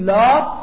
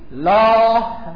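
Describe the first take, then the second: First: The word ends with a t sound. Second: The word ends with an h sound. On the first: "میتونید بگید لات" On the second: "به صورت ها هم جوازن تلفظ میشه"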